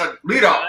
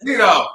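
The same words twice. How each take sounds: First: Said in the usual way. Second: Calling out. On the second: Real, not acted. Calling out a team member.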